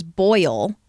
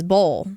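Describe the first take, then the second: First: Put-on "boil" with a full oy sound, boy-ul; "boil" said clearly with its oy sound; standard boil. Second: "bowl" for boil, the oy flattened to a long o; "bowl" rhymes with hole, with no oy sound; family's Southern bowl. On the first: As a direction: say "boil" carefully, as on air. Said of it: "one word that I can't say very well". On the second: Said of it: "my family says bowl". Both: Shown as a demonstration.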